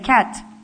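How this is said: The word is said whole in one go. This is how an experienced reader says the word. "You just say"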